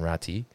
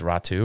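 First: The name ends in an 'ee' sound. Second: The name ends in an 'oo' sound. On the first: The speaker calls it wrong. "rather than Ratti" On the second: The speaker calls it right. "I think it's Ratu"

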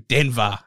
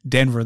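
First: Said with an exaggerated imitation of the accent. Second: Said plainly in the speaker's own accent. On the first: It is how others imagine the speaker says it. "That's how they think we say it" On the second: It is how the speaker really says it. "say it your way. And I'm like"

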